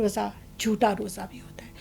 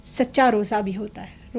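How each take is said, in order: First: Hushed aside about the false fast; whisper. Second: Said in the usual way. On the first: Shown as a demonstration. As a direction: whisper the false fast, breath only, much softer. Contrasting true and false fasting.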